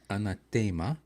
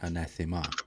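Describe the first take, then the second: First: The stress is on the third syllable. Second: The stress is on the second syllable. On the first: This is the classical Latin pronunciation. "the most common you would hear in classical Latin" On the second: This is the English pronunciation. "in English it's always been"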